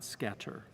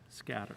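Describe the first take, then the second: First: The middle T is a crisp, hard T. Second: The middle T is soft, almost a D. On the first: The speaker calls it wrong. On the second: The speaker calls it right. "We want it as we speak it"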